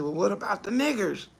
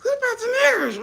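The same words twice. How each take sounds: First: Quoted suggestion. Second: Much higher and fast, disbelieving echo; incredulous repeat. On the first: Comedian quoting someone in a meeting, low mock voice. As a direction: lower and softer, a mock boardroom voice. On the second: Comedian echoing the boardroom suggestion in disbelief, high and fast. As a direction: throw the question back in shock. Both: Retold or imitated. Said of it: "somebody said".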